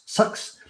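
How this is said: The vowel sounds close to the u in sucks. "I think New Zealanders say sucks"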